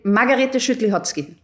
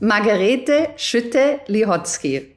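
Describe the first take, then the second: First: The name is said very fast. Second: The name is said at normal speed.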